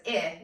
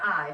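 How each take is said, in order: First: "I" as the short vowel ih, as in fin; teacher showing the short vowel "I" as ih; short i sound. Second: "I" as the letter name eye; teacher showing the wrong take, "I" said as eye; long i sound. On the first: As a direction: say "I" as a clipped ih, not the letter name. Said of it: "each vowel is still short". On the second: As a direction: say "I" like the word eye, the long vowel. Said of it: "It says I, not I". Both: Shown as a demonstration.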